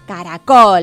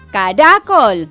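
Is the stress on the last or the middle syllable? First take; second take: last; middle. First: The stress is on the last syllable. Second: The stress is on the middle syllable. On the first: The speaker calls it right. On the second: The speaker calls it wrong.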